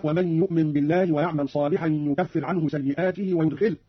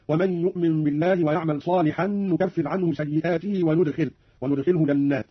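First: Said in the usual way. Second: "نكفر" and "وندخله" begun with n; noon in both verbs. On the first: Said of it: "قرأ قالون بالنون في الفعلين". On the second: Shown as a demonstration. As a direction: start "نكفر" and "وندخله" on n, not y. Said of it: "بالنون في الفعلين". (نون العظمة في "نكفر" و"وندخله")

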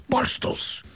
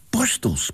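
First: Borstels breathed out without voice; whispered repeat. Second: Said in the usual way. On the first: A narrator's reading. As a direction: whisper borstels to make it clear. Repeating slowly. (borstels, gefluisterd herhaald)

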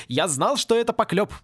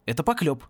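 First: Higher, triumphant relief; beaming with happiness. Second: Said in the usual way. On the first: A narrator's reading. Happy professor to Порри, joyful vindication. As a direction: exclaim it, vindicated and delighted. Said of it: "Профессор просто сиял от счастья". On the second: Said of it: "согласился Порри".

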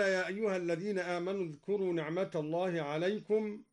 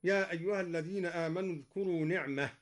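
First: "نعمة الله" joined, the t sounded; continued reading with t. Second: Quick reading that stops at "نعمة", no t sounded. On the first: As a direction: say "نعمة" as ni'mata, running into the next word. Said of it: "وقف الدوري على نعمة بالهاء". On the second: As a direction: end on "نعمة" as ni'mah, with h in place of t. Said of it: "وقف الدوري على نعمة بالهاء هكذا". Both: Shown as a demonstration.

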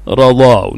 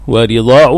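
First: رضاع as radaa'; رضاع opened on its first letter; fatha on the ra. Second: ورضاع as wa-ridaa'; ورضاع with its ra in kasra. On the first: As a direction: say رضاع with a short "a" after the r. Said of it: "بالفتح والكسر أيضًا في الراء". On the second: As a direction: say ورضاع with a short "i" after the r. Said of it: "بكسر الراء". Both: Shown as a demonstration.

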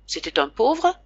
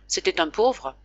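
First: «pauvre» monte en question, plus haut; voix de père qui doute; question soupçonneuse. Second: «pauvre» retombe, affirmatif; affirmation calme. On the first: Le père interroge, méfiant. («C'était un pauvre?» intonation montante) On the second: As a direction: mens sans rougir, ton plat et descendant. Réponse mensongère du fils. («C'était un pauvre.» intonation descendante) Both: Acted.

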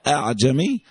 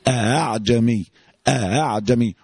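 First: أعجمي with a long a vowel stretched between the two hamzas; wrong drawn-out version. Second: أعجمي with the second hamza softened and no long a added; correct eased hamza. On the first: Teacher warning students, showing the wrong long a in أعجمي. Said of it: "الكلام ده مش عندنا". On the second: Teacher to students, showing the correct softened hamza in أعجمي. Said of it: "تسهيل الهمزة التانية بس". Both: Shown as a demonstration.

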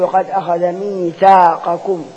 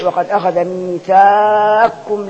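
First: ميثاقكم as mithaaqakum, qaf clearly sounded; no assimilation. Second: Slow recitation, ميثاقكم as mithaakkum with qaf merged; wrongly assimilated. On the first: Teacher showing it unmerged, ميثاقكم with its qaf sounded. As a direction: recite slowly, keep qaf and kaf apart in ميثاقكم. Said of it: "ما نضغموش". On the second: Teacher showing what not to say, ميثاقكم without its qaf. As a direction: stretch the aa of ميثاقكم, then wrongly double the kaf. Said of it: "ما نقولش وقد". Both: Shown as a demonstration.

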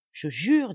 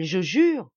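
First: Swearing. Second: Louder second vow; swearing louder. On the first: Solemn oath, repeated. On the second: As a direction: repeat the oath with more force. Solemn oath, repeated louder. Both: Acted.

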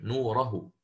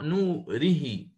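First: "نوره" said as "نورَهُ", damma on the ha; Shu'ba reading. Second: Very slow "نوره" as "نورِهِ", kasra on ra and ha; Hafs reading. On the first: Teacher gives Shu'ba's form for contrast, briefly. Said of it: "وشعبة يضم هاء الكناية". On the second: Teacher contrasts Hafs reading for students, slow. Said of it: "الإمام حفص يقرأ". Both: Shown as a demonstration.

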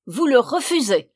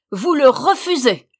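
First: High, loud, incredulous anger; roaring outrage. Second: Higher, very loud fury; full roar. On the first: Witch hearing the sister refuse, loudly outraged. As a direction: react in loud outrage, holding back a notch. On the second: Witch repeating the refusal in disbelief, roaring. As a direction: roar it out, topping the first outburst. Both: A narrator's reading. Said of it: "rugit la vieille".

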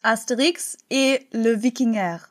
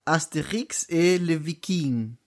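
First: Fake French. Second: Real French. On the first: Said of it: "[name] auf Fake-Französisch". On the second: Pretend. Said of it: "[name] auf Echt-Französisch".

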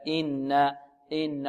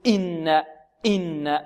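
First: إن with a soft, unforced glottal onset; easy, smooth hamza. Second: إن with the opening glottal stop pushed too hard; over-pressed hamza. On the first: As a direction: let the hamza of إن slip out gently. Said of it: "سلسة سهلة هكذا". (إن بهمزة سلسة سهلة) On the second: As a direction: lean heavily on the hamza that starts إن. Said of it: "يضغط على الهمزة". (إن بضغط متكلف على الهمزة) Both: Shown as a demonstration.

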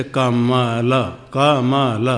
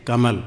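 First: Slow "कमल", split into क, म, ल; "कमल" spelled out as ka-ma-la, evenly spaced; syllable by syllable. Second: Said in the usual way. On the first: Shown as a demonstration. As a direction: sound out each letter of "कमल" with its full vowel. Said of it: "पहले कहेंगे तो जैसे". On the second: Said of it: "क्या कहेंगे?".

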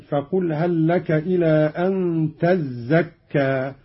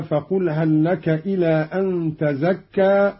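First: "تزكى" as "tazzakka", held zz; slow recitation pressing the z of "تزكى"; doubled zay. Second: "تزكى" as "tazakka", light z; slow recitation, undoubled z in "تزكى"; single zay. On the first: Teacher demonstrates Qalun's reading, "تزكى" with doubled z. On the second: Teacher reads the verse before the variant, "تزكى" as tazakka. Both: Shown as a demonstration. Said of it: "قرأ قالون بتشديد الزاي".

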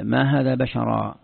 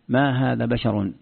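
First: "بشرا" ending in a long -aa; slow recitation, drawing out the final aa of "بشرا"; accusative ending. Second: "بشر" ending in -un; slow recitation, "بشر" said basharun; nominative ending. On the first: Teacher shows students the accusative reading, "بشرا" ending in -aa. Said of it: "بالنصب". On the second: Teacher shows students the nominative reading, "بشر" ending in -un. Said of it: "بالرفع، على أنه مبتدأ وخبر". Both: Shown as a demonstration.

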